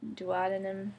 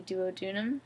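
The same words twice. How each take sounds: First: "Duodenum" said doo-AH-duh-num; alternative pronunciation. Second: "duodenum" said doo-oh-DOO-num; pronunciation of duodenum. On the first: Vlogger unsure of the word, "Duodenum" as doo-AH-duh-num. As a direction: stress the second syllable of "Duodenum", as AH. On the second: Vlogger naming her gut part, "duodenum" as doo-oh-DOO-num. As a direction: say "duodenum" with an oh, stress late. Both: Shown as a demonstration. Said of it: "however you say that word".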